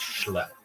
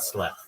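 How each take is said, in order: First: The word begins with an sh sound. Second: The word begins with a plain s sound. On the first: The speaker calls it right. "It's schlep" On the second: The speaker calls it wrong. "It's not slep"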